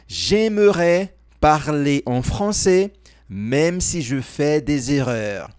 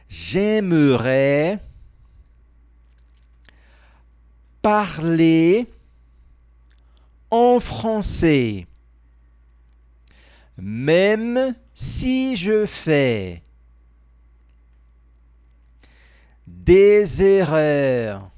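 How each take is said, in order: First: The sentence is spoken at a normal pace. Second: The sentence is spoken very slowly.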